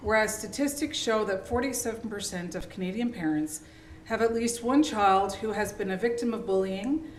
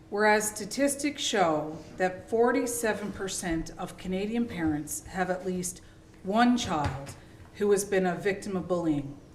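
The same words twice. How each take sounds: First: It is read at a normal, faster pace. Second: It is read at a deliberately slower pace.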